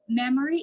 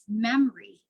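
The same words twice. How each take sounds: First: The middle vowel is pronounced, three syllables. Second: The middle vowel is dropped, two syllables. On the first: The speaker calls it wrong. "Memory is memory" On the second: The speaker calls it right. "is memory"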